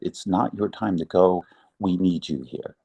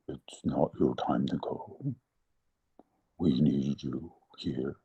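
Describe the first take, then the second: First: It is said in her normal voice. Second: It is said in a put-on tree voice.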